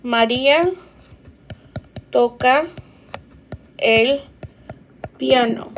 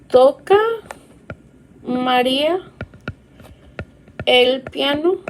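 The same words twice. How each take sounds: First: "María toca el piano" falling at the end of "piano"; teacher reading the statement; statement tune. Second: Teacher reading the question; rising question. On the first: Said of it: "a statement that says". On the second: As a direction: lift "¿Toca" and rise on "piano" as a question. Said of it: "the intonation still has to be there". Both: Shown as a demonstration.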